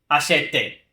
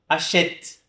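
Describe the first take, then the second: First: The final e is pronounced as a vowel. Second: The final e is silent; it ends on t. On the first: The speaker calls it wrong. "nem achete" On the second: The speaker calls it right. "Como se eu não pronunciasse essa letra E"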